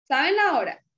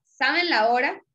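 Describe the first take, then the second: First: "¿Saben la hora?" with the voice dropping on la hora; falling statement. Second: "¿Saben la hora?" with the voice lifting at the end; rising question. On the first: A teacher contrasting statement tune for students. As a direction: say it as a plain fact, falling. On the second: A teacher contrasting question tune for students. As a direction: ask it so the pitch climbs. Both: Shown as a demonstration. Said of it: "¿Cuál es la diferencia?".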